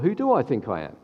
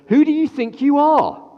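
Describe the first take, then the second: First: It sounds like a sincere, reflective self-question. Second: It sounds like a scornful, accusing challenge.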